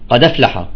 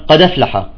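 No difference in how they are said.

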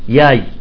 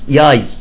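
First: The word begins with a y sound. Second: The same.

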